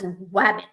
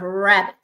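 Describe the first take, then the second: First: The word begins with a W sound. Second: The word begins with an R sound. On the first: The speaker calls it wrong. "a child says wabbit instead of rabbit" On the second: The speaker calls it right. "instead of rabbit"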